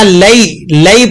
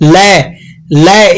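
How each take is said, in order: First: The syllable glides softly into the i sound. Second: The syllable is cut short with a jerk. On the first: The speaker calls it right. "लै नहीं पढ़ना, लई लई पढ़ना है" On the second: The speaker calls it wrong. "यहां पर अक्सर लोग गलती क्या करते हैं? ... इस तरह की आवाज निकालते हैं"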